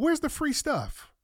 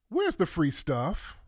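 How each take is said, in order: First: "Where's the free stuff?" asked high and slowly, stretched in disbelief; high incredulous. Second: "Where's the free stuff?" slow and flat in normal pitch, rising at end; drawn-out sarcastic repeat; dry repeat. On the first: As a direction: squeak it out, stunned. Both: Real, not acted. Repeats question, high then low.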